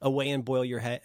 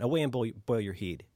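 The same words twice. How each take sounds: First: Said in the usual way. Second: "heed" said with a long ee, Scots-style; Scots "heed" for head. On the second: Shown as a demonstration. Host quoting a Scottish insult, "heed" with Scots long ee. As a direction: say "heed" to rhyme with need. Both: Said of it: "trying to avoid doing the accent".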